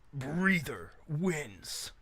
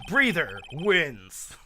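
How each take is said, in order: First: It is said in a deep announcer voice. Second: It is said in a normal speaking voice.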